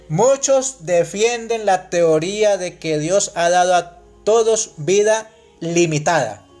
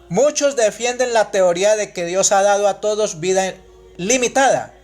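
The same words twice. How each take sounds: First: It is read slowly. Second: It is read at normal speed.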